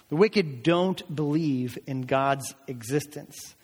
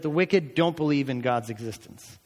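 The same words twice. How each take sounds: First: Slow down and space out "don't believe in God's existence"; measured emphasis, each word given room; slow, deliberate repeat. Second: Said in the usual way. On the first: Real, not acted. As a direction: drive the point home slowly. Point repeated slowly for emphasis.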